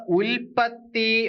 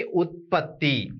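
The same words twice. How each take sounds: First: ഉൽപ്പത്തി with a clear l sound before the pp, slowly. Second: ഉത്പത്തി with a t sound before the p, slow and falling. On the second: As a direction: say ഉത്പത്തി slowly as ut-patti. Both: Shown as a demonstration. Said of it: "ഉൽപ്പത്തിയാണോ ഉത്പത്തിയാണോ".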